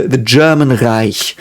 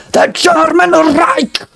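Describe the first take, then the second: First: "German Reich" said softly, unforced and slower; soft pronunciation. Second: High, drawn-out mock shout; hammed-up harsh ranting German, slowly stretched; Hitler. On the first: Shown as a demonstration. Correcting the harsh Hitler-style version, soft everyday "German Reich". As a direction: ease gently through "German Reich", no harshness. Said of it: "Like, very soft". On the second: Imitating how people think German sounds, hammed-up harsh shout. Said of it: "German is the way Hitler spoke".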